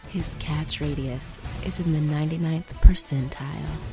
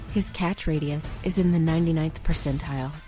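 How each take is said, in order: First: It is said slowly. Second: It is said at a normal speed.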